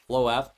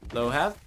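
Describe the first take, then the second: First: The H sound is left silent. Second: The H sound is pronounced.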